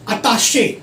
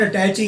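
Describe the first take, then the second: First: The word ends with a 'shay' sound. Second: The word ends with a 'chee' sound. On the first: The speaker calls it right. "ये वाला word अताशे" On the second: The speaker calls it wrong. "Now it's not अटैची"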